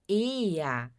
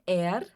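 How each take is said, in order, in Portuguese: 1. A palavra termina com uma vogal parecida com a. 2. A palavra termina com um r pronunciado. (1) "Aqui vai ter o som de A no final" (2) "a gente não diz er"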